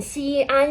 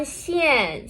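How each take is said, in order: First: "xi, an" as two level syllables held apart; teacher's part-by-part "xi, an"; separated pinyin parts. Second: "xian" run together as one falling syllable; fourth tone. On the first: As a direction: sound out "xi" and "an" separately. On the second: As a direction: blend "xian" and drop the pitch. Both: Shown as a demonstration. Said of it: "with the fourth tone".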